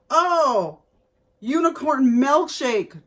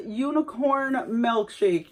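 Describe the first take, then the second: First: "unicorn milkshake" exclaimed louder and a bit higher, falling on "unicorn"; delighted first read of the label; excited reading. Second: "Unicorn milkshake" said slowly and evenly, each word drawn out; slow reread. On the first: Real, not acted. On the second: Shown as a demonstration. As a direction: reread the label slowly, as if checking it. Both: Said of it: "That's what it says".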